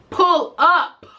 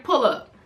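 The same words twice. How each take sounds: First: Louder, pitched up, daring her to come; loud defiant "Pull up"; defiant dare. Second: Said in the usual way. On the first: Retold or imitated. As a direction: throw down the challenge. Daring the woman to come over.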